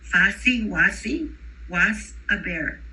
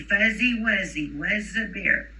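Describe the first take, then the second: First: The words use a hissing S sound instead. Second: The words use a buzzing voiced Z sound. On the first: "they don't have that Z sound initially" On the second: "repeat after me"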